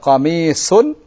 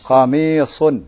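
First: The s sound is light and plain. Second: The s sound is heavy and emphatic. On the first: The speaker calls it wrong. "Kalau qamisun, sin, lain lagi" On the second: The speaker calls it right. "Ini dengan sad"

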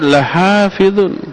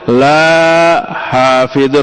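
First: The first vowel is kept short. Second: The first vowel is held long. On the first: We will surely preserve it. The speaker calls it right. "Ada la pendek" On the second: We will not preserve it. The speaker calls it wrong. "Jadi begitu kalau dibacanya panjang"

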